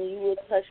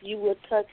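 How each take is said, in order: Both takes have the same delivery.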